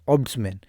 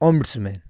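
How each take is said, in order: First: The word is said without an m sound. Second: The word is said with an m sound. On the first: "कोई नहीं करता है" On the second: "कोई एम का उच्चारण करता है"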